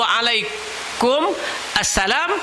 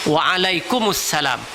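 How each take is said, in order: First: The two words are said separately, unlinked. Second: The two words are linked into one. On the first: The speaker calls it wrong. "bila sambung Waalaikum Assalam" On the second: The speaker calls it right. "kena sambung Waalaikumsalam"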